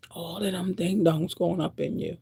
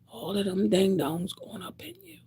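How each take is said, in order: First: Said in the usual way. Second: Hushed whisper of ding-dongs line; whispered take. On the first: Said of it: "repeated plainly". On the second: Real, not acted. To the women listening, a hushed warning whisper. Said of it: "whispered repeat".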